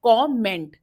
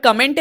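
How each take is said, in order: First: कमेंट as "kaw-ment", open rounded o; correct pronunciation of comment. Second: कमेंट as "kuh-ment"; wrong pronunciation of comment. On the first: Teacher gives the correct word, कमेंट as kaw-ment. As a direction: say कमेंट in two clear beats, "kaw-ment". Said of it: "correct pronunciation है". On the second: Teacher marks the common mistake, कमेंट as kuh-ment. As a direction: say कमेंट with a short, weak first vowel. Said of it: "is गलत". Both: Shown as a demonstration.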